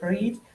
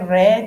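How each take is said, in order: First: It is said with the present-tense vowel sound. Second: It is said with the past-tense vowel sound. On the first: The action happens now. The speaker calls it wrong. "We can't say read" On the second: The action happened in the past. The speaker calls it right. "you'll say read instead of read because it's past tense"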